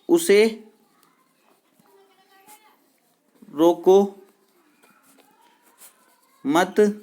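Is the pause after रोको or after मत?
after मत. The pause comes after मत.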